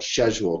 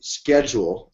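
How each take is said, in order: First: It is said with a British pronunciation. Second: It is said with an American pronunciation.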